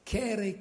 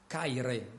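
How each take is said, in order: First: The word is said with non-classical pronunciation. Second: The word is said with classical pronunciation.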